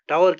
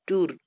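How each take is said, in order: First: It rhymes with 'flower'. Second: It rhymes with 'poor'. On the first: The speaker calls it wrong. "हमें टावर कहना चाहिए" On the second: The speaker calls it right. "उसको हम टूर कहते हैं"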